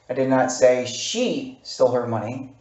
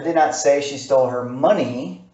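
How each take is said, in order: First: The stress falls on a word other than money. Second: The stress falls on the word money. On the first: "it has a different emphasis on another word" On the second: "I'm going to take a word, money, and I'm going to enunciate it"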